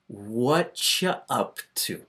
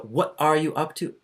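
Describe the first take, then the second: First: The words run together into a reduced 'whatcha'. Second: Every word is said fully and slowly. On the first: It is casual, informal everyday speech. The speaker calls it right. "What we say is, what ya" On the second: The speaker is repeating for someone who missed it. The speaker calls it wrong. "Nobody says that. You would have to be speaking very slow"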